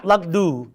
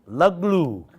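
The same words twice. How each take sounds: First: "lugdu" with a d in the middle; wrong word "lugdu". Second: "Luglu" with an l after the g; corrected "Luglu". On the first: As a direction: say "lugdu", d instead of the second l. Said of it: "No, this is not lugdu". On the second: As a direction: say "Luglu", l in place of d. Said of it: "this is not lugdu". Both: Shown as a demonstration.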